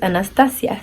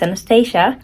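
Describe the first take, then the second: First: The name is pronounced the Spanish way. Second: The name is pronounced the English way.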